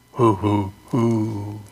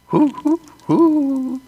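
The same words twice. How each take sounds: First: Low hooting owl call. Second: High hooting owl call. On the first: Answering the owls with a lower hoot call. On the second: Showing off his owl call on the porch, high hoots. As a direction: hoot up high like a little owl. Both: Pretend. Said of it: "Aren't I good?".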